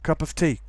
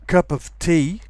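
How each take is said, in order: First: It is said quickly with the of reduced. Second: Every sound is said fully and carefully. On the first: "when you pronounce it quickly" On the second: "we have cup of tea"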